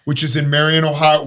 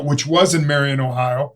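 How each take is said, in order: First: Said in the usual way. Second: "was" stressed as a self-correction. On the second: Real, not acted. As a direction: correct yourself by leaning on "was".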